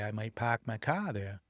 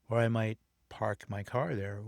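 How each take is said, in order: First: It is said in a Boston accent. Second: It is said in a general American accent.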